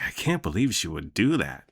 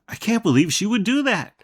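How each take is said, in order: First: It is said in a sarcastic tone. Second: It is said in a surprised tone.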